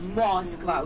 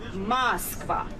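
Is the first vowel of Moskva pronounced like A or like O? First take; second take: O; A. First: The first vowel sounds like O. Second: The first vowel sounds like A. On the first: The speaker calls it wrong. "We don't say" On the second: The speaker calls it right. "We say A. Instead of O, we say A"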